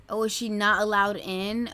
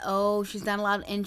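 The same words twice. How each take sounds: First: "Oh, is she not allowed in?" asked with a rising, puzzled tune; wondering aloud whether she's barred, rising at the end; surprised question. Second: "Oh, she's not allowed in." said flatly, stressing "allowed", tune settling down; the answer dawns, say it as plain fact; settled realization. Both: Real, not acted.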